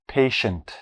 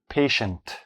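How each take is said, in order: Both takes have the same delivery.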